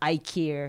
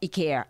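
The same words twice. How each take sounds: First: It is said with American English pronunciation. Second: It is said with Japanese katakana-style pronunciation. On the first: The speaker calls it right. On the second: The speaker calls it wrong.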